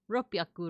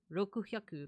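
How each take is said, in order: First: A p sound replaces the k and h. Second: Both words are said fully, with every vowel. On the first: This is the modern form. "somehow this became a p" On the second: This is the guessed original form. "maybe it did start out as Roku Hyaku"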